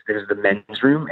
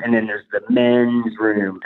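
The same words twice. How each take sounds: First: Said in the usual way. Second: And then there's the men's room, with men's leaned on, slow and knowing; slow, knowing stress on men's, falling off after it. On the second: Retold or imitated. Hinting the bathroom means sex, a slow knowing stress.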